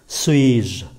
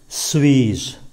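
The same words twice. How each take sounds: First: The final je is said lightly, unstressed. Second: The final je is said lightly, unstressed.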